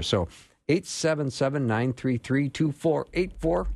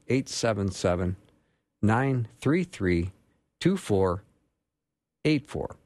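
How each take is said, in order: First: The number is read at normal pace. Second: The number is read more slowly.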